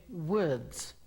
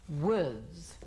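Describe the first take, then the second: No difference in how they are said.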